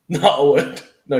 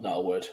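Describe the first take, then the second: First: Laughing, louder. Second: Said in the usual way. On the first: Pretend. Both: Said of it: "Just joking with you".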